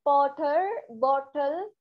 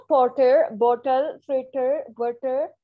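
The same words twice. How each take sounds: First: "पॉटर" and "बॉटल" said with a hard retroflex t; wrong local way. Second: "पॉटर" said with a hard retroflex t; mock the local hard t; wrong hard t. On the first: Teacher mimicking how Pakistanis are taught to say it. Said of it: "ये सब गलत है". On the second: Teacher demonstrating the wrong local pronunciation. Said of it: "ये गलत है". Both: Shown as a demonstration.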